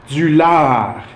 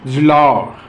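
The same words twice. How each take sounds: First: The a is a plain open a sound. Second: The a sounds between an a and an o. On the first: "in international French" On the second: "In Québécois French"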